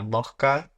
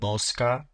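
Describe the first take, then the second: First: The s is weakened to a breathy h sound. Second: The s is pronounced as a full hissing s.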